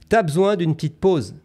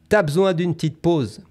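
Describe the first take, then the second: No difference in how they are said.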